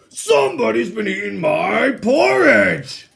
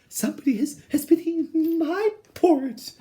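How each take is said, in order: First: It is said in a deep, big bear voice. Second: It is said in a medium-pitched, middle-sized voice.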